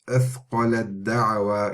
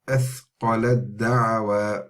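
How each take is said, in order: First: The t merges completely into the following d. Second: The same.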